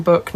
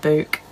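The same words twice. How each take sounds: First: Book with a short vowel, as in put. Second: Book said like 'byook' or 'booook', long oo as in food; long oo vowel. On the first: Streamer explaining pronunciation to viewers, short-vowelled book. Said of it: "technically we're saying it wrong". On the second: Streamer showing the rejected pronunciation, long-vowelled book. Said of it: "two O's does make an oo sound". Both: Shown as a demonstration.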